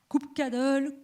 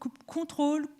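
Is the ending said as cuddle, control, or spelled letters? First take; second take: cuddle; control. First: The ending is said like the word cuddle. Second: The ending is said like the word control.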